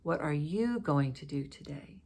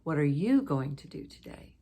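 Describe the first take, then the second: First: The word "you" carries the main stress. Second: The word "you" carries the main stress.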